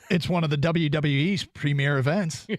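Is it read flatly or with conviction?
flatly. It is read flatly, without conviction.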